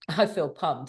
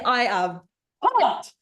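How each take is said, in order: First: It is said flatly, with low energy. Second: It is said with high, lively energy.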